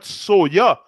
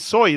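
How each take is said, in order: First: The word ends with an extra final vowel. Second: The word ends without an extra final vowel. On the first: The speaker calls it wrong. "It's not soya" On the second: The speaker calls it right. "It's really soy"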